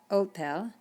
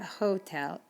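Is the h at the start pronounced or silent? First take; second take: silent; pronounced. First: The h at the start is silent. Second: The h at the start is pronounced. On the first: The speaker calls it right. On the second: The speaker calls it wrong. "not hotel"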